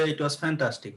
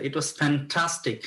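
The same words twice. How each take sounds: First: Said in the usual way. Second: "fantastic" heavily stretched for excitement; exciting, enthusiastic. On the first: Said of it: "হইলো না". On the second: Shown as a demonstration. Teacher showing students how to sound excited, enthusiastic. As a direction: draw out "fantastic" with relish, falling at the end. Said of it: "এটা একটু exciting".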